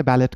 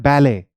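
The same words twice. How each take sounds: First: बैलेट said "BAL-et"; mistaken sounded t. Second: बैले said "BAL-ay"; silent final t. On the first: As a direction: end बैलेट on a heard t. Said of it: "बहुत लोग इसे बैलेट कहते हैं". (बैलेट में "ट" बोलकर) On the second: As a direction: end बैले on "ay" with no t. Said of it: "इसे हम कहते हैं बैले". (बैले के अंत में "ट" नहीं) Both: Shown as a demonstration.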